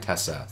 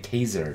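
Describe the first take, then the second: First: The middle consonant is an s sound. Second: The middle consonant is a z sound.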